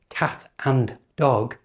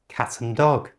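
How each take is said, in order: First: The word 'and' is said in full. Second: The word 'and' is reduced to 'un'. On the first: The speaker calls it wrong. "it's not" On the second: The speaker calls it right. "and has become just un"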